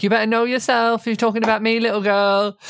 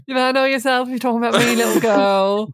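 First: Mildly raised imitation of a roar; a lightly raised hint of a yell; quoting Aisling's roar. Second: Higher mock roar at a housemate; imitating a roar. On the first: Podcaster quoting the housemate's line to friends, lightly raised. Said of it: "they have the iconic". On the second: Retelling Aisling roaring at Nikki, a mock roar. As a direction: roar it out, half-hearted. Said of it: "Aisling just roars at her".

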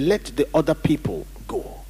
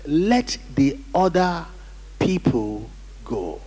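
First: Said in the usual way. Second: "Let the other people go" slowly, in weighty separated chunks; emphatic repeat. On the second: Real, not acted. Preacher making sure the congregation heard, slow and emphatic. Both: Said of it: "Did you hear what I said?".

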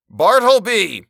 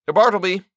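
First: Very high, loud roar of a name. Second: High, louder call across the room. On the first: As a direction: bellow the name with full force. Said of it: "I roared". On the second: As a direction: summon him sharply. Calling the clerk from his desk. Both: Acted.

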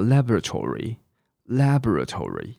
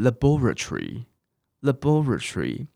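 First: Laboratory said the American way, stress on LAB with a full tor syllable; American pronunciation. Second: Laboratory said the British way, stress on BOR, la-BOR-a-try; British laboratory with a swallowed middle; British pronunciation. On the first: Teacher models the American laboratory for students. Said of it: "美式英文叫". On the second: Teacher contrasts the British laboratory with the American. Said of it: "可是英式英文是". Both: Shown as a demonstration.

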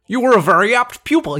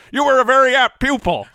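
First: High, loud Jimmy Stewart attempt; Jimmy Stewart impression. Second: High, loud halting Jimmy Stewart; Jimmy Stewart impression. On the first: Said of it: "I think you're better than mine". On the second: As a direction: channel old Jimmy Stewart. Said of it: "our Jimmy Stewart off".

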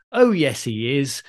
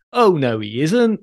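First: Pantomime catchphrase reply. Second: Slow, lilting stage denial; pantomime catchphrase. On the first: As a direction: answer back in playful panto sing-song. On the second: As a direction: draw out a playful panto contradiction. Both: Shown as a demonstration. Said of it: "you're referring to Christmas pantomime".

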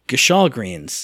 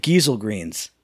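First: "Gashal greens" as guh-SHAHL greens; familiar pronunciation. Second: "Giesel greens" as GHEE-zul greens; game's odd pronunciation. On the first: Gamer naming the cart's load, "Gashal" as guh-SHAHL. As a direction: stress the second syllable of "Gashal". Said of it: "No, it's packed with Giesel". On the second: Gamer quoting the vendor, "Giesel" as GHEE-zul. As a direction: stress the first syllable of "Giesel", hard G. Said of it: "No, it's packed with". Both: Shown as a demonstration.

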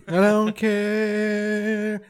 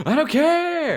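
First: Very slow, stretched I don't care. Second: High, mocking sung-out I don't care. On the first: Retold or imitated. Friend mocking a blunt reply, slow stretched rock drawl. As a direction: drag every word out lazily. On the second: Friend mocking a blunt reply, whiny rock-singer echo. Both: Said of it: "That's a very Weezer thing to say".

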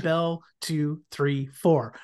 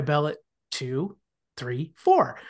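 First: Quick, even count of the rings; brisk bell count. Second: Slow, spaced-out counting of the rings; slowed-down bell count. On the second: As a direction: count with long gaps between beats. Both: Retold or imitated. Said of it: "could you slow it down?".

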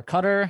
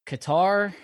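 First: Qatar said like "cutter", stress up front; alternative pronunciation of Qatar. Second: Qatar with stress on the last syllable, kuh-TAR; first pronunciation of Qatar. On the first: Host unsure of the country's name, Qatar said CUT-er. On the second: Host listing countries to a guest, Qatar said kuh-TAR. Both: Shown as a demonstration. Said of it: "however you say it".

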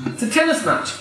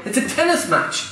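No difference in how they are said.

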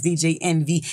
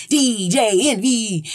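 First: Said in the usual way. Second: Stretched-out, higher hype call; show-intro call. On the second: Retold or imitated. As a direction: draw the name out like a radio show opener. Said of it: "at the top of the Breakfast Club".

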